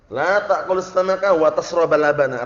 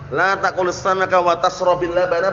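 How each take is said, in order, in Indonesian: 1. Kata kerja tashrab diakhiri dengan vokal a. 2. Kata kerja tashrab diakhiri dengan vokal i. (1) "Kalau dibaca wa tasroba" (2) "Kalau dibaca dengan kasrah"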